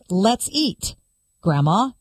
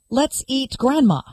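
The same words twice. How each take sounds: First: There is a pause before Grandma. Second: There is no pause before Grandma.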